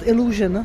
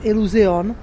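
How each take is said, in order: First: The name is pronounced the English way. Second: The name is pronounced the Czech way.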